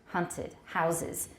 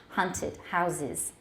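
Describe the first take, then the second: No difference in how they are said.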